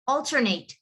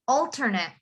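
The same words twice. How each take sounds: First: The last syllable is a full, stressed 'ate'. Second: The last syllable is a short, weak 'et'. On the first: The word is used as a verb. "But if it's a verb, you would say alternate... you have to say the eight part" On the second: The word is used as a noun. "If it's a noun, you would say alternate... You don't say the E"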